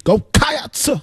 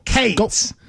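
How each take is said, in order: First: "Cats" drawn out high, KAH-ats with a rise; "Cats" stretched and lifted like a sermon; preacher-like Cats. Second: "Cates" clipped to one syllable, KAYTS; a single short "Cates". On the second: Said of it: "It's like one syllable". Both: Shown as a demonstration.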